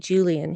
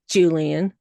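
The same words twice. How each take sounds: First: The name is said in a plain, neutral way. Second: The name is said with a scornful, sneering tone.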